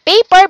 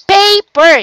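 First: Said in the usual way. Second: "paper" in two separate higher beats, pa, per; split into syllables. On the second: Shown as a demonstration. Teacher repeating a pupil's answer, "paper" split by syllable. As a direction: break "paper" evenly after pa. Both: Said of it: "syllables word".

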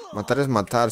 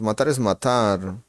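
First: Said in the usual way. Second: Slow, leaning on "es" with a rise; slow emphatic repeat. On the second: Shown as a demonstration. Streamer repeating his catchphrase to chat, slow and emphatic. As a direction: spell out "Matar es matar", stressing "es".

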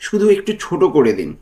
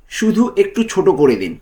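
No difference in how they are said.

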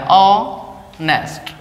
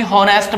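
First: ऑनेस्ट spoken very slowly with no h, opening on the vowel; ऑनेस्ट dragged out slowly, starting on a bare vowel; silent h, drawn out. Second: हॉनेस्ट with a voiced h at the start; हॉनेस्ट with the h sounded, as some kids say it; wrong way with h. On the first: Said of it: "ऑनेस्ट होता है". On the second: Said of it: "कुछ बच्चे इसको भी हॉनेस्ट बोलते हैं". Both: Shown as a demonstration.

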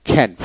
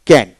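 First: "খ্যান" with a puff of air after the K; phonetic aspirated K. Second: Said in the usual way. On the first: Shown as a demonstration. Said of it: "ফোনেটিক্সে কিন্তু খ্যান উচ্চারিত হবে". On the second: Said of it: "আমরা ক্যান উচ্চারণ করি".

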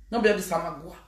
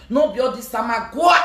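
First: Said in the usual way. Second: "samagua" pushed out, rising at the end; emphatic. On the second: Shown as a demonstration. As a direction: stress "samagua" with a rise.

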